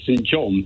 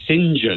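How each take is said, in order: First: The name is said the everyday way. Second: The name is said the Oxbridge way. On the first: "you and I would say Saint John" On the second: "Oxbridge types pronounce Saint John"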